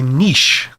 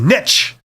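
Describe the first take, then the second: First: Niche is said the Canadian way. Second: Niche is said the American way.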